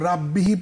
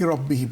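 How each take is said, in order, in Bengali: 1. r পাতলা ও হালকা করে বলতে হয়। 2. r মোটা ও ভারী করে বলতে হয়। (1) "রাব্বিহি পড়বো নাকি"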